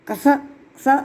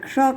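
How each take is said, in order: First: The hissing sound is a dental s. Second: The hissing sound is a retroflex sh. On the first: The speaker calls it wrong. "ન કરાય" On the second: The speaker calls it right. "પણ ક્ષ કરાય"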